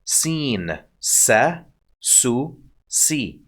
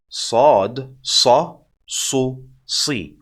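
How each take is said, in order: First: Light, plain s in "Seen, sa, su, si"; very soft seen. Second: Heavy, dark s in "sad, sa, su, si"; emphatic sad. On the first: Teacher introduces the seen, very soft s. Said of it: "Very soft". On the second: Teacher compares sad to seen, heavy emphatic s. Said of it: "See how emphatic that sound?". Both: Shown as a demonstration.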